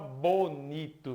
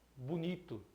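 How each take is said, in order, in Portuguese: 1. A primeira vogal é um som de O claro. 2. A primeira vogal é um som de U. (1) "Dificilmente alguém fala bonito" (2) "ele aparece sempre com o som de U"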